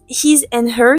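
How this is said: It is said with a heavy French accent.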